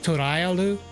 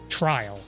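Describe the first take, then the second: First: Extra vowels split the name into many syllables. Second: The name is said as one clipped English word. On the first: "which is probably the Japanese pronunciation" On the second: "it's clearly Trial"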